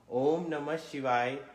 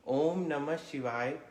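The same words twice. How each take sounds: The two takes are said the same way.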